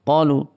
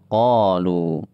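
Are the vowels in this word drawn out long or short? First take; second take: short; long. First: The vowels are cut short. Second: The long vowels are drawn out. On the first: The alif and waw letters cannot be heard. "ketika tidak dipanjangkan" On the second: The alif and waw letters can be heard. "Karena dipanjangkan"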